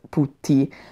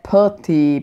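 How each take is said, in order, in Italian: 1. La parola viene pronunciata con suoni italiani. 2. La parola viene pronunciata con suoni inglesi. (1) "io la pronuncio Putti" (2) "in inglese Putty"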